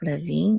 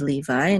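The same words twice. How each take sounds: First: The stress is on the last syllable. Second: The stress is on the first syllable. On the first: This is the Hebrew pronunciation. "the accent is on the last syllable" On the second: This is the English pronunciation. "instead of Levi in English"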